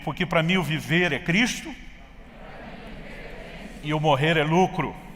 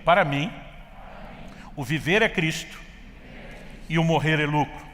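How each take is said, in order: First: It is said with enthusiasm and energy. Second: It is said calmly, without extra energy.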